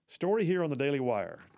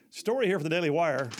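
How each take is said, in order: First: It is said flatly, with low energy. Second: It is said livelier, with higher energy.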